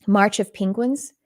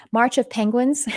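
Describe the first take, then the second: First: Slight Texas vowel in Penguins; Texas accent. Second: Said in the usual way. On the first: Real, not acted. Naming a film she just watched, Texas accent. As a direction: let Texas slip into Penguins, slowly. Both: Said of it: "I said it with my Texas accent".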